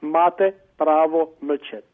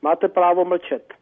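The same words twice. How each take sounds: First: It is said slowly. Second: It is said fast.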